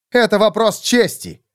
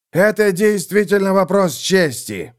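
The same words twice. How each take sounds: First: A lord's proud, raised insistence. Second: Put-on old knight's raised, fervent cry; exclaiming templar. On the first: Acted. Von Volgen to the templar, proudly raised. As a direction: stand on your honour, voice lifted. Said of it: "сказал фон Фольген". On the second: Theobald answering the lords, exclaiming fervently. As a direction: exclaim it as a matter of honour. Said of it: "воскликнул Теобальд".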